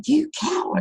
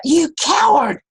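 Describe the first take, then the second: First: Put-on the echo answering the boy. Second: High, loud taunting shout; boy yelling at his echo in anger; angry yell. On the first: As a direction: let it bounce back fainter. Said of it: "And came back". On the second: Retold or imitated. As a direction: hurl the insult at the hills. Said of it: "and he yelled out".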